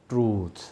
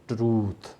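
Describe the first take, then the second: Both takes have the same delivery.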